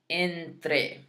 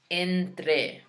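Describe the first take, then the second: No difference in how they are said.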